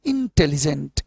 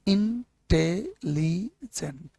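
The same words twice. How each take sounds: First: Said in the usual way. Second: intelligent broken slowly into four syllables; syllables split. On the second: Shown as a demonstration. Teacher splits intelligent into its syllables for the class. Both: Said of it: "चार टुकड़े में टूट रहे हैं ये word".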